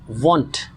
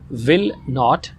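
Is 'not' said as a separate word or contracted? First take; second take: contracted; separate. First: Not is reduced and joined to the verb. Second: Not is said as a full separate word. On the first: "Contracted form is" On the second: "the long form"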